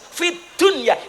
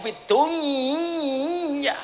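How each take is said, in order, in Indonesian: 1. Tiap bunyi diucapkan jelas dan terpisah. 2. Bunyinya menyatu menjadi satu aliran. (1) "Fid dunya idhar gitu" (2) "Idgham niku fid dunya"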